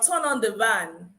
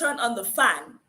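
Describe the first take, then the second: First: The last word starts with a V sound. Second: The last word starts with an F sound. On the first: The speaker calls it wrong. "Some Akwa Ibomites have the issue with the v and f, and they mix it" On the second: The speaker calls it right. "instead of"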